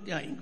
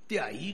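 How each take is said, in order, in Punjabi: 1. ਅੰਤਲਾ ਸਵਰ ਨਾਸਿਕੀ ਹੈ। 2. ਅੰਤਲਾ ਸਵਰ ਸਾਦਾ ਹੈ, ਨਾਸਿਕੀ ਨਹੀਂ। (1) "ਧਿਆਈ ਕਹਾਂਗੇ" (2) "ਧਿਆਈ ਕਹਾਂਗੇ ... ਗੱਲ ਨਹੀਂ ਬਣੇਗੀ"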